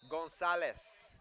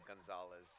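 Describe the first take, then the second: First: It is said with a Spanish pronunciation. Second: It is said with a plain English pronunciation.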